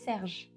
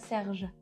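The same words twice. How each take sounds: First: It ends on the consonant with no vowel. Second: It ends with an added final vowel sound. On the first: The speaker calls it right. "we would say Serge" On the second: The speaker calls it wrong. "He is pronouncing the final E"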